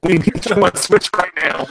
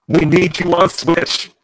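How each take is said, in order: First: Robotic plea; urgent robot voice. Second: Slow robotic plea; drawn-out robot voice. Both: Real, not acted. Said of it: "with your robot voice right now".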